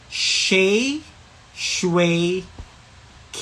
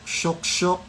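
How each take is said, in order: First: It is said as three distinct syllables. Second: It is said as one repeated syllable. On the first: The speaker calls it right. "Dapat ganito yung pagkasabi niya" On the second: The speaker calls it wrong. "Hindi shushok, shok-shok, shwik-shwik, hindi ganyan"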